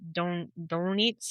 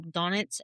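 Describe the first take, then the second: First: Slow, halting stab at a German pronunciation of "Donitz"; attempted German accent. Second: Said in the usual way. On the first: Shown as a demonstration. Host retrying a German admiral's name, attempted German accent. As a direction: try "Donitz" slowly in an unconvincing German accent. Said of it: "I can't do a German accent". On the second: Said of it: "I probably said his name wrong".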